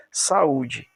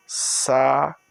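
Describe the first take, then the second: First: Said in the usual way. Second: "Saúde" split into sa, ú, de; syllable by syllable. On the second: Shown as a demonstration. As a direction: pause between each syllable of "Saúde". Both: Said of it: "Porque a sílaba dessa aqui".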